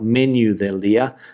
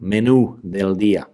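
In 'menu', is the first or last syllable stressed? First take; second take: first; last. First: Menu is stressed on its first syllable. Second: Menu is stressed on its last syllable. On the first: The speaker calls it wrong. "not menu del día" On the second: The speaker calls it right. "menu, with the accent over the U"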